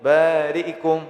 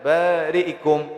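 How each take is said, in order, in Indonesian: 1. Vokal setelah hamzah dibaca cepat dan pendek. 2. Vokal setelah hamzah dibaca cepat dan pendek.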